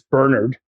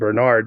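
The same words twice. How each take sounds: First: The name is said in a British way. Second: The name is said in a non-British way. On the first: "I'm a fan of the British pronunciation" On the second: "as opposed to Bernard"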